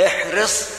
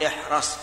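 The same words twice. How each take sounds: First: "احرص" with kasra on the ra, ihris, set with a rising tune; the right way: "احرص" as ihris; "احرص" clearly said ihris; correct form of احرص. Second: The rejected form: "احرص" as ihras; "احرص" said ihras, the mistake; wrong form of احرص. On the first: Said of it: "إذن نقول". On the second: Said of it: "ولا نقول". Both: Shown as a demonstration.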